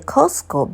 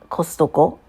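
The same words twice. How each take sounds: First: The middle T sound is left out. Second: The middle T sound is clearly pronounced. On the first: It sounds like another brand's name. "we don't say Costco" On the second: It keeps the name distinct from another brand. "We uh, try to pronounce the T in the middle of the word"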